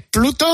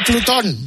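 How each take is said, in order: First: PLUTO stressed on the first syllable. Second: PLUTÓN stressed on the last syllable; Plutón ending in a stressed "-ón"; Plutón, final stress. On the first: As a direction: say Pluto as "PLOO-to". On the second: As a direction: say Plutón as "ploo-TON". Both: Shown as a demonstration. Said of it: "qué se dice".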